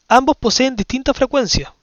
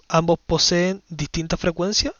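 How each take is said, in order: First: Raised, louder reading of a quiz option; reading the option aloud. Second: Said in the usual way. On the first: Shown as a demonstration. Teacher reads the test option to her class, raised and louder. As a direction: read the option out to the class, a little higher and louder.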